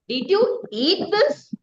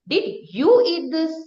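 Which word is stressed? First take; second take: eat; you. First: The stress is on "eat". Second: The stress is on "you".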